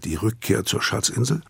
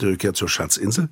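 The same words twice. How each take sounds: First: The phrase is spoken slowly. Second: The phrase is spoken quickly. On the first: The speaker calls it right. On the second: The speaker calls it wrong.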